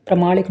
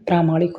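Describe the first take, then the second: First: प्रामाणिक with a short first a; wrong vowel length. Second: प्रामाणिक with a long first aa; correct long vowel. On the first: Teacher shows students the mistake, short first vowel. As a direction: say प्रामाणिक starting pra, brief. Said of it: "नहीं". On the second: Teacher corrects students, long first vowel. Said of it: "होता है". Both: Shown as a demonstration.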